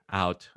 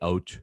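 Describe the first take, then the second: First: It is said with a Filipino accent. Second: It is said with a Canadian accent.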